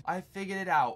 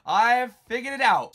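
First: Said in the usual way. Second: Excited. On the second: Real, not acted. Proud discovery, shouted out.

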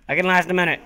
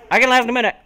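First: Said in the usual way. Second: Higher and louder, stress on "last"; loud self-encouragement; louder pep talk. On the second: Real, not acted. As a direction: pump yourself up and hit "last".

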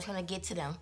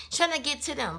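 First: Said in the usual way. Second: Repeated higher with stress on "Trying"; emphatic repeat. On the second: Real, not acted. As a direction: hammer it home the second time.

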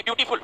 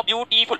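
First: Said in the usual way. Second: beautiful broken into three parts, view, टी, फुल; syllable by syllable. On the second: Shown as a demonstration. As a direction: stretch beautiful out, separating each syllable. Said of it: "कितने बार हमको रुकना पड़ता है".

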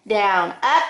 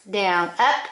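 The two takes are said the same way.

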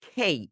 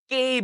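First: খেই with a light aspirated খ, then ই; correct K. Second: কেই with an unaspirated hard ক; wrong K. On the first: Teacher modelling English K, aspirated gliding খেই. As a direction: puff air on খ, glide খেই into ই. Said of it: "pronounced with খ". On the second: Teacher showing the learners' mistake, unaspirated ক in কেই. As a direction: start কেই on ক without any puff of air. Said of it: "ক দিয়ে বলি". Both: Shown as a demonstration.

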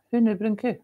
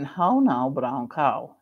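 First: WHO KNEW BROWN COW as broad Scots hoo noo broon coo; playful Scottish take on the elocution drill, all OO vowels; Scots version. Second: HOW NOW, BROWN COW with rounded, open OW vowels; careful standard vowels in HOW NOW, BROWN COW, dropping low on COW; elocution exercise. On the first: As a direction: turn every OW into OO, higher than usual. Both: Shown as a demonstration.

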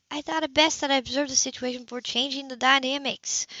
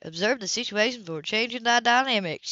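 First: Higher, careful, proper phrasing; prim sister voice. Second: Mocking her sister's prim phrasing; sneering imitation. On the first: Acted. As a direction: say it like a proper doctor. Sybil's prim original phrasing. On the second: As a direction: sneer it back in a mock copy. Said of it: "her imitation of a sneezing voice".

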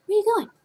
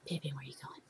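First: Much higher, brighter call after him; high sing-song call. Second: Whispered question to the ferret. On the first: Owner calling after her ferret as he wanders off, high. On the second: Owner whispering to her ferret wandering off, hushed. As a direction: breathe it without voice. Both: Real, not acted.

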